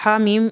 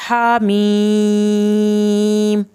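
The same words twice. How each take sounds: First: Said in the usual way. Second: "ہا میم" very slowly with a long level held i; tajweed recitation. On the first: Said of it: "ہا میم ایک آیت". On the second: Shown as a demonstration. Teacher reciting the first verse before a pause, elongated "ہا میم". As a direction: chant "ہا میم" on a sustained tone. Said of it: "اس پہ ہم".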